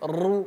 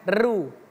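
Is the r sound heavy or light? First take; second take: heavy; light. First: The r is heavy and full. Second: The r is light and thin. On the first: The speaker calls it right. "Kalau dia dhammah atau fathah, ro itu menjadi tebal" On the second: The speaker calls it wrong. "bukan ru"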